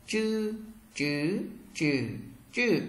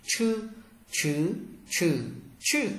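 First: "Chư, chứ, chừ, chừ" with tongue curled, no puff of air; unaspirated retroflex zh. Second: "Chư, chứ, chừ, chừ" with tongue curled and a strong puff of air; aspirated retroflex ch. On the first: Teacher models zh for learners, "Chư, chứ, chừ, chừ" curled-tongue and unaspirated. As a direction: say "Chư, chứ, chừ, chừ" as light curled-tongue zh through four Mandarin tones. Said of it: "Chữ Z H các bạn cong lưỡi không bật hơi và đọc giống trời nhẹ".

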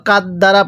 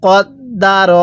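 First: কাদ দ্বারা with light k and open a; কাদ দ্বারা run together with plain vowels; common mispronunciation. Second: কদ দা র recited with heavy k and r; careful Quranic pronunciation. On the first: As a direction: say কাদ দ্বারা with an everyday Bengali k. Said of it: "তাহলে পড়াটা সহি শুদ্ধ হবে না". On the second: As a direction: sound out কদ দা র syllable by syllable, o-coloured first and last. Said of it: "কীভাবে পড়তে হবে?". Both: Shown as a demonstration.

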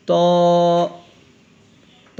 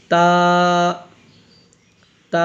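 First: "ত" with a heavy, full t and rounded o vowel; thick sound. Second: "তা" with a thin, light t and open long aa; thin sound. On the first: Teacher showing pupils the thick letter, heavy "ত". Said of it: "মোটা আওয়াজ হবে". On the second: Teacher showing pupils the thin letter, thin "তা". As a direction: draw out "তা" thinly, not rounded. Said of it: "একদম পাতলা হবে". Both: Shown as a demonstration.

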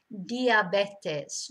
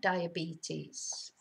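First: "Diabetes" as dee-ah-BEH-tes; Spanish pronunciation. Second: "diabetes" as die-uh-BEE-teez, slow and softer; English pronunciation. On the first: Teacher showing different vowels, "Diabetes" as dee-ah-BEH-tes. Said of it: "vowels are so different in Spanish". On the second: Teacher giving the version to avoid, "diabetes" as soft die-uh-BEE-teez. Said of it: "not diabetes". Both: Shown as a demonstration.

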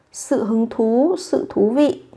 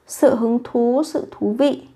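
The two takes are said the same way.

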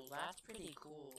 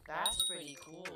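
First: Softer echo, falling; quiet. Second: Said in the usual way. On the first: Acted. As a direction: mutter it back quietly. Repeats own remark more softly.

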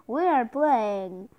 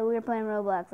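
First: Announcer voice. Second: Said in the usual way. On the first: Acted. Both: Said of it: "that was my best announcer voice".

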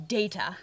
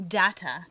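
First: "data" said as DAY-tuh; "data" with first vowel as in "date"; long-a pronunciation. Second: "Data" said as DAT-uh; "Data" with first vowel as in "dad"; short-a pronunciation. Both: Shown as a demonstration. Contrasting two pronunciations of data.

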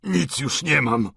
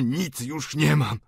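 First: Put-on slow, higher-pitched wail of an old man; anguished, drawn-out admission; despairing cry. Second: Slow, drawn-out lament; higher-pitched wretched admission; despairing refrain. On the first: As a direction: cry it out, dragging each word. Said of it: "zawołał, rwąc sobie włosy". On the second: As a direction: stretch the words in helpless despair. Despairing refrain of the old father. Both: A narrator's reading.

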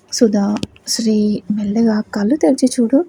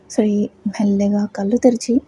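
First: Whisper. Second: Said in the usual way. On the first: Acted. Beside a patient waking up.

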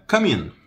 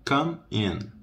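First: "come in" run together as cu-min; quick, higher, linked "come in"; linked words. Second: "Come in" slowly, a gap between words; higher, careful word-by-word delivery; separated words. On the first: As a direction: join "come in" into one word. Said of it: "Emenda tudo". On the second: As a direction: split "Come in" for learners. Teacher separates the two words. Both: Shown as a demonstration.

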